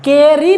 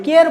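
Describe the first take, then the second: First: केयर ही with an extra ee sound at the end; wrong pronunciation. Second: Said in the usual way. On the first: Shown as a demonstration. Teacher shows students the wrong way, adding the silent E sound. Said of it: "केयर ही नहीं पढ़ते हैं". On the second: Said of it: "केयर पढ़ते हैं".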